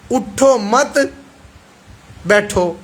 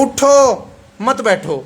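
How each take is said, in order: First: اٹھو مت run together, long pause, then بیٹھو; group مت with اٹھو, then stop before a separate بیٹھو; pause after مت. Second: Drawn-out اٹھو, a pause, then مت بیٹھو together; pause after اٹھو. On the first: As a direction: break the phrase after مت, leaving بیٹھو alone. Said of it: "دو حصوں میں ڈیوائیڈ کروں". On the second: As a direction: stretch اٹھو and break before مت. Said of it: "اگلا لفظ الگ کر دوں". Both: Shown as a demonstration.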